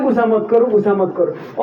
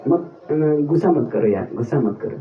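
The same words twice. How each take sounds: First: Said in the usual way. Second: Lower, softer, teasing calm-down; mock soothing tease. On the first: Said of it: "और ज्यादा गुस्सा दिलाते हैं". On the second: Teasing an angry devotee friend, mock soothing. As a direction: coo it low to rile him up. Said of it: "क्या बोलने से इसको गुस्सा आएगा".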